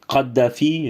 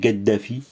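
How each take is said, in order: First: The name begins with a k sound. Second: The name begins with a g sound. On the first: This is the usual French pronunciation. "Moi je dis Kadhafi" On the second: This follows spoken North African Arabic. "ça devient Gaddafi"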